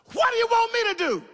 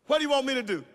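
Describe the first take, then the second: First: A raised prophet's cry; Elijah calling out. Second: A hushed prophet's question; Elijah asking gently. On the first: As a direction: call it out as Elijah to the woman. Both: Acted. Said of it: "And Elijah said unto her".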